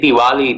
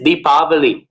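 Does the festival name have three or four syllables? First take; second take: three; four. First: The name is said as a shortened three-syllable form. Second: The name is said as a full four-syllable form. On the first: This is the common modern form. "we say Diwali these days" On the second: This is the traditional Sanskrit form. "technically it is Deepavali"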